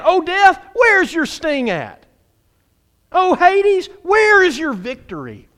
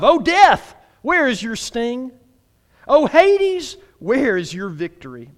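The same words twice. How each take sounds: First: Loud, high taunt all the way through; trash talking. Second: Loud high call, easing on each question; taunting scripture reading, questions held back; scriptural smack talk. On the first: Preacher acts out scripture taunting death and Hades, trash talk. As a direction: call out death like a rival, slowing on the question. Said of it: "it's basically some trash talking". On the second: Preacher reads verse fifty-five to the church, restrained smack talk. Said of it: "That's some scriptural smack talk". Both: Acted.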